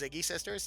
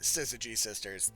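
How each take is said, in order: First: The first word is said with two syllables. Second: The first word is said with three syllables. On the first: The speaker calls it wrong. "I was actually incorrect about the pronunciation" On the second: The speaker calls it right. "that is the actual pronunciation"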